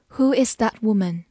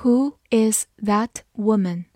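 First: Said in the usual way. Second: Slow, careful question; slow reading. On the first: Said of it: "慢读一遍". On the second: Shown as a demonstration. Teacher reading the question slowly for students. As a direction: ask it slowly and clearly. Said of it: "好，慢读一遍。".

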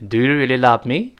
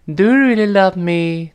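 First: Said in the usual way. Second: Cutesy pleading question, last word drawn out; coquettish. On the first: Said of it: "这更正式一点的说法". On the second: Shown as a demonstration. Teacher shows how to ask when acting cute, coquettish. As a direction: wheedle it like a pouting sweetheart. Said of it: "比如在撒娇的时候".

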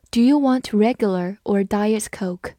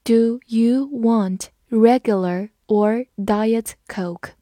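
First: Said in the usual way. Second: Slow, even read-along. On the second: Shown as a demonstration. Teacher reading slowly for students to repeat. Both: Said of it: "跟着我慢读一遍".

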